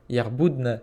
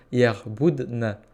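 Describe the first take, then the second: First: Said in the usual way. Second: "Yerboudna" repeated very slowly, syllable by syllable. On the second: Shown as a demonstration. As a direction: stretch "Yerboudna" out for learners to copy.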